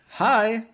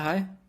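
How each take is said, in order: First: The greeting sounds warm with a smile. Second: The greeting sounds flat and unsmiling. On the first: The speaker calls it right. "you're speaking with a laugh in your voice" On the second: The speaker calls it wrong. "It's not, yeah"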